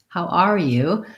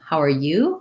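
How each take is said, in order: First: The stress is on "are", said with a full vowel. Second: The stress is on "you"; "are" is reduced. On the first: "if I'm stressing, how are you? How are you? Then I'm using a clear R vowel" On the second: "If my stress is on you, then how are gets reduced"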